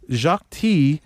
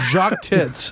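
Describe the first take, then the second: First: The surname ends without its final consonant sound. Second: The surname ends with its final consonant sounds. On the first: The speaker calls it wrong. "I guess you don't pronounce the consonant in uh, the last consonant in French" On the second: The speaker calls it right. "I'm sorry. I was mispronouncing"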